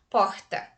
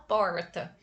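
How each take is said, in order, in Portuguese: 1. O R raspa no fundo da garganta. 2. O R é curvado para trás, um som retroflexo. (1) "Aquele R lá no fundo da garganta" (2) "O nosso famoso R caipira, R mineira"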